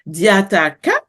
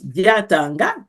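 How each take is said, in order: First: The last syllable begins with a k sound. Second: The last syllable begins with an ng sound. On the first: "with a ka or a nga" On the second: "with a ka or a nga"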